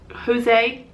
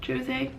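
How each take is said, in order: First: "Jose" with an H sound at the start; Spanish-style J. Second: "Jose" with a soft J or sh sound at the start; English-style J. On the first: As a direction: say Jose as ho-ZAY, tentatively rising. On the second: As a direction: say Jose as joh-ZAY. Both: Shown as a demonstration. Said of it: "I think that you would pronounce it".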